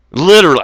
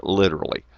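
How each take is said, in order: First: Literally punched out higher and louder; Literally as a loud outburst; emphatic literally. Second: Said in the usual way. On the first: Shown as a demonstration. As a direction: slam the word Literally with a jump up. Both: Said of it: "Literally, I don't give a fuck".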